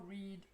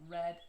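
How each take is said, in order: First: The vowel is long and tense. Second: The vowel is short and lax. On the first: It is the base form of the verb. "The verb base, the infinitive V zero, is read with a tense vowel" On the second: It is the past participle. "the same as for the past participle"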